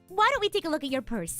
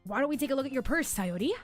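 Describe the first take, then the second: First: It is said in the speaker's normal voice. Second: It is said in a put-on character voice.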